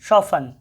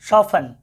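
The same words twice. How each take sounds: No difference in how they are said.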